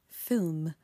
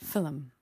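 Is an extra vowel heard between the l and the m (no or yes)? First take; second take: no; yes. First: No extra vowel comes before the final m. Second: An extra vowel comes before the final m. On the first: "the word film" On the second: "I would say film"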